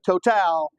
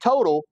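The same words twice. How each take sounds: First: The name is said with French pronunciation. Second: The name is said with English pronunciation. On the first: The speaker calls it right. "but it's French, so you got to say Total" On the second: The speaker calls it wrong. "Don't say total"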